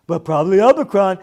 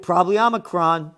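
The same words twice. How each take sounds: First: Fast, louder childish mocking of the sportscaster's words. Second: Said in the usual way. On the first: Host mocks sportscaster's covid line in a childish taunting voice. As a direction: ridicule him like a six-year-old talking. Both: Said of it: "What are you, six years old talking like this?".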